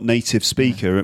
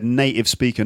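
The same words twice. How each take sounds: First: The T in native is clearly pronounced. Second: The T in native becomes a glottal stop.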